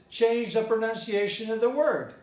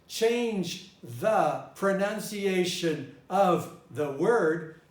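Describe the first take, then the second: First: The word of is reduced to uh. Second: The word of is said fully. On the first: "in the normal rhythm ... I didn't say the of. I just said uh" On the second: "in one rhythm is said like this"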